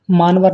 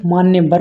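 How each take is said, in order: First: मानवर as "maanvar", without "ya"; mispronunciation. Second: Said in the usual way. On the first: Shown as a demonstration. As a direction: drop the middle ya, saying मानवर. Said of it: "मानवर नहीं". (मानवर बिना 'य' के) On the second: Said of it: "मान्यवर होते हैं".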